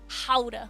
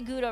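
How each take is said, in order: First: The word begins with a breathy H-like sound. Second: The word begins with a hard G sound. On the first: The speaker calls it right. "Almost, but that was way better" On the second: The speaker calls it wrong. "we don't say Gouda right"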